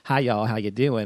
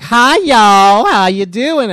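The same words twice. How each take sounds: First: It has a light Southern accent. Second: It has a thick Southern accent.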